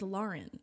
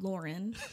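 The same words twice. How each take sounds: First: The first vowel is an open 'ah' sound. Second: The first vowel is not an 'ah' sound. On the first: This is how the owner says her own name. The speaker calls it right. "My name is Lauren. A U says ah" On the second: This is how most others say the name. The speaker calls it wrong. "It's not Lauren"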